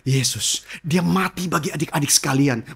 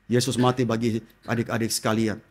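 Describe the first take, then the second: First: It is said with lively expression. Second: It is said flatly, without expression.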